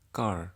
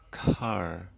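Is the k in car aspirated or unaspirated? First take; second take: unaspirated; aspirated. First: The k is soft, without a burst of air. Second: The k is released with a strong burst of air. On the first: The speaker calls it wrong. "tidak hanya sekedar car" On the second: The speaker calls it right. "tetapi car"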